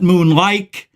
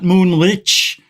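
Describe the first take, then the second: First: The name ends in an 'ike' sound. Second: The name ends in a soft 'ich' sound. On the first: "not moonlike" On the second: "Not moonlich"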